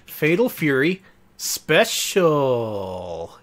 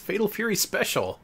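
First: It is said in a dramatic game-announcer voice. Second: It is said in a plain, ordinary speaking voice. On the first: The speaker calls it right. "That's how the announcer says it" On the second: The speaker calls it wrong. "Oh, I didn't say that right"

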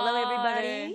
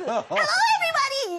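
First: It is said in a low, deep voice. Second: It is said in a high, bright voice.

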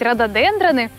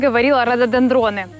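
First: The stress falls on the 'den' syllable. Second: The stress falls on a syllable with O. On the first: The speaker calls it right. "надо говорить рододендроны" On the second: The speaker calls it wrong. "я, как и все, говорила рододендроны"

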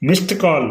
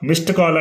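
No difference in how they are said.

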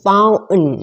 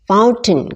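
First: The T sound after N is dropped. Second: The T sound after N is pronounced.

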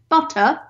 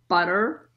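First: It is said in a British accent. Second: It is said in an American accent.

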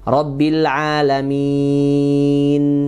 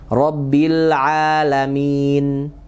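First: The vowel before the final n is held very long. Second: The vowel before the final n is held briefly. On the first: "enam harokat" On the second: "dua rakaat"

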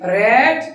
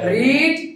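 First: The vowel is short, as in 'red'. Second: The vowel is long, as in 'reed'. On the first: This is the past participle form of the verb. "বানান কিন্তু একই, উচ্চারণটা কি হবে?" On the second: This is the present form of the verb. "রিডের কি বানানে কি কিন্তু উচ্চারণটা কি হবে?"

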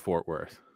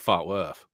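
First: Fort is said with a clear r sound. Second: Fort is said without an r, like fawt.

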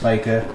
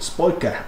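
First: The name is said in a plain accent. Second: The name is said in an Australian accent. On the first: "I assume it's pronounced Spika" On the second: "It's my best Australian accent"

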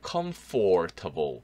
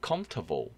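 First: Every syllable, including the middle 'or', is pronounced. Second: The middle 'or' is dropped and it sounds quick. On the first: The speaker calls it wrong. "이걸 다 발음하면 힘들어요" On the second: The speaker calls it right. "빨리 들으시면"

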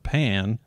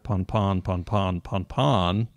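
First: The vowel is the short a of cat. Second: The vowel is the open aw of law. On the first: "its pronunciation as the common pan" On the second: "the other common pronunciation as pawn"

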